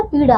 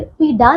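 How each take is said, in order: First: पीड़ा with a flapped R sound; correct pronunciation. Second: पीड़ा with a hard D instead of the flap; mispronounced word. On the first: Teacher corrects the word for pupils, properly pronounced. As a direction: say पीड़ा as "pee-raa", tongue flapped. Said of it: "पीड़ा होता है". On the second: Teacher shows pupils what is wrong, mispronounced. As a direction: say पीड़ा as "pee-daa". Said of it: "नहीं होता". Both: Shown as a demonstration.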